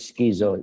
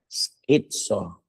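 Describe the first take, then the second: First: The middle sound has no t in it. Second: The middle sound is ts, with a t. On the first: The speaker calls it wrong. "Do not pronounce it schizo" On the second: The speaker calls it right. "the right pronunciation daw according dito mga psych"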